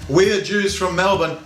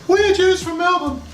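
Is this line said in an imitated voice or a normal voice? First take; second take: normal; imitated. First: It is said in the speaker's ordinary voice. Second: It is said in a put-on, imitated voice.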